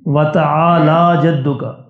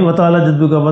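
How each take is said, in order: First: It has a throat sound and a long vowel. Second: It is rushed with a short, clipped middle vowel. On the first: Your majesty is exalted. The speaker calls it right. "वतआला आइन और उसके बाद अलिफ है" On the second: The meaning of the words changes. The speaker calls it wrong. "जल्दी जल्दी में"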